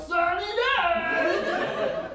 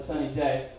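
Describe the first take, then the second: First: Very high, drawn-out mock cheer; exaggerated sarcasm. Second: Said in the usual way. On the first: Shown as a demonstration. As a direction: stretch it out in high, over-the-top sarcasm. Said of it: "I'm supposed to be sarcastic". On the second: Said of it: "That means great day".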